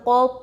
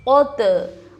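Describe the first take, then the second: First: The final consonant ends plainly without a bounce. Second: The final consonant ends with an echoing bounce.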